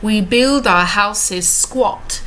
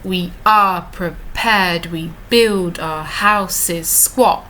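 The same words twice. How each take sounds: First: Said in the usual way. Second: Slow, "build" and "squat" hit on the beat; iambic reading. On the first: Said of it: "that strong heartbeat". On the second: Shown as a demonstration. Teacher reading the line to show the heartbeat. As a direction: read it slowly, landing each strong beat. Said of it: "could you hear that? The heartbeat".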